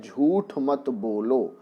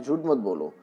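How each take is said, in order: First: "झूठ मत बोलो" slowly, with a clear aspirated ठ at the end of "झूठ"; slow careful pronunciation. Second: "झूठ मत बोलो" run together quickly, ठ softened in the flow; quick fluent speech. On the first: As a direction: spell out "झूठ" slowly, stressing the ठ. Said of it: "वहाँ पर ठा का ही उच्चारण होना होता है". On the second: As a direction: rattle off "झूठ मत बोलो" as in fast everyday talk. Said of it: "जब हम स्पीड में बोलते हैं". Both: Shown as a demonstration.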